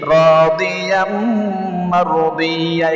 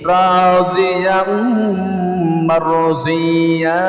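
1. মাঝের ব্যঞ্জনটি d-এর মতো শোনায়। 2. মাঝের ব্যঞ্জনটি z-এর মতো শোনায়। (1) "রাদিয়ামও বলতে পারেন" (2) "এখানে রাজিয়াম বলতে পারেন, মারজিয়া অর্থাৎ দদের 2টা উচ্চারণ আমরা করে থাকি"

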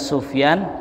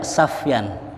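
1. Suku kata pertama berisi vokal u. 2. Suku kata pertama berisi vokal a. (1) "boleh dibaca Sufyan" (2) "boleh dibaca Safyan"

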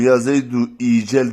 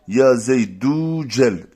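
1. Zaydu'dan sonraki kelime 'ee' sesiyle başlar. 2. Zaydu'dan sonraki kelime uzun 'oo' sesiyle başlar. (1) "Yani ya zeydu icel demiyoruz ha" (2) "Ya zeydu cel şeklinde okuyoruz"

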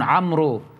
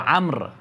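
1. الحرف الأخير w يُلفظ كحركة 'oo'. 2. الاسم ينتهي بالحرف الساكن r، والحرف w صامت. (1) "بعض الناس يشتبون يقولون عمرو" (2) "هو عمرو، الواو لا تلفظ"

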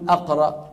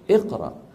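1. الكلمة لا تبدأ بـ i. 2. الكلمة تبدأ بالحركة i. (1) "ما منقول اقرا" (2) "اذا كان مفتوح كمان منكسر"

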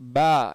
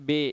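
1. எழுத்தின் பெயர் திறந்த 'aa' உயிரொலியில் முடிகிறது. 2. எழுத்தின் பெயர் 'ay' உயிரொலியில் முடிகிறது. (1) "எளிமையான முறையில் நம்ம பா பா என்பதாக குறிப்பிடணும்" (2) "உருது முறைப்படி கற்றுக் கொடுத்தவர்கள்... பே என்பதாக சொல்லிக் கொடுத்துட்டாங்க"

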